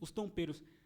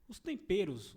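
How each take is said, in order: First: It is said in a French accent. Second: It is said in a plain Brazilian accent.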